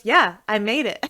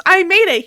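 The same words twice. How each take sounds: First: Said in the usual way. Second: High, loud, emphatic reply; emphatic retold answer. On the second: Sandwich maker answers Frank, emphatic retold reply. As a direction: fire back the answer, hammed up.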